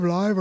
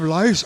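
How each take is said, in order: First: "live" said as the word for being alive, rhyming with five; misreading "live" with a V sound for lice. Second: "lice" said clearly, with an S sound at the end; reading "lice" correctly this time; corrected word. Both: Acted.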